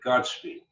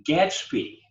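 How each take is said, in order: First: "Gatsby" said as "Gotsby"; mispronounced. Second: "Gatsby" with a short "a" as in cat; corrected pronunciation. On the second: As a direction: say Gatsby as GATS-bee, clearly. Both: Shown as a demonstration. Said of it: "not Godspeed".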